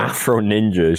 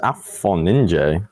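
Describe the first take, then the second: First: AFRO NINJA with the R put into AFRO. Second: AFRO NINJA said without the R, as Af-on-ninje. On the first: Rejecting a co-host's version, AFRO NINJA with the R. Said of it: "sounds weird and not right". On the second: Correcting a co-host on a player's name, AFRO NINJA without the R. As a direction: drop the R in AFRO NINJA, ending in -je. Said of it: "I don't think there's an R". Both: Shown as a demonstration.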